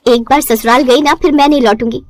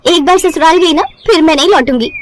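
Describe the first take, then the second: First: Plain rueful echo of एक बार ससुराल गई ना; tired bride mocks her own old boast, rueful; mocking her own vow. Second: High, proud declaration of एक बार ससुराल गई ना; boastful vow. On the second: Acted. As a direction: bride boasts to mother she won't return, proud and high. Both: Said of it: "क्या dialogue मारा था तूने।".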